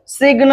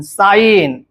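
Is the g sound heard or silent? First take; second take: heard; silent. First: The g sound is pronounced before the n. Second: The g is silent, heard as sine. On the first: The speaker calls it wrong. "सिग्न होणार नाही" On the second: The speaker calls it right. "साईन असा शब्द वाचत असतो आपण"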